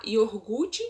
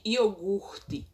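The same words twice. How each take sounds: First: "iogurte" with the r moved before the g, "iorgute"; colloquial iogurte. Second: Said in the usual way. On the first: Shown as a demonstration. Teacher showing the swapped iogurte. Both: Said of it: "ao invés de".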